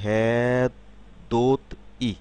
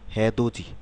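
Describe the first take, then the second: First: Each syllable is said apart, ending in a 't'. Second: The syllables are linked, with a 'j' sound. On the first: "আমরা যদি আলাদা আলাদাভাবে উচ্চারণ করি" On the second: "যখন শব্দে উচ্চারণ করব"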